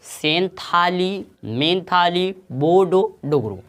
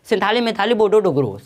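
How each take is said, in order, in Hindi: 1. वाक्यांश धीरे बोला गया है। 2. वाक्यांश तेज़ बोला गया है। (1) "थोड़ा धीरे से पहले बोलो" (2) "अब स्पीड"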